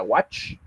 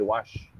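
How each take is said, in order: First: "watch" ending in a short, abrupt ch; watch with hard ch. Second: "wash" ending in a long, soft sh. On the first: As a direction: cut "watch" off sharply on the ch. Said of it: "la forma de pronunciar es más golpeada". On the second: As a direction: let the sh of "wash" stretch out gently. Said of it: "más alargadita ... suena un poquito más suave". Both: Shown as a demonstration.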